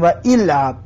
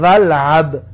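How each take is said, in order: First: و العب with the hamza said aloud, 'wa il-ab'; و العب said as separate 'wa' plus 'ilab'; wrong reading. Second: ولعب run together as 'walab', hamza silent; ولعب said as one word with no 'i' before لعب; correct reading. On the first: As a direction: show the mistake: و العب with a full 'il' vowel before لعب. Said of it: "و العب غلط است". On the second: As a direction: glide 'wa' straight into لعب: ولعب as 'walab'. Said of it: "میگیم ولعب". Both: Shown as a demonstration.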